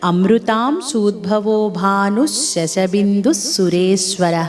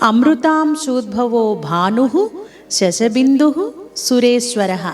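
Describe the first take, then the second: First: The names run together, with visarga endings dropped. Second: The names are separated, with visarga endings sounded. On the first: The whole line is recited together. "విసర్గలను పలకకుండా" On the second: Each name is recited on its own. "విడదీసి చెప్పినప్పుడు నామాలను ఈ విధంగా పలకాలి"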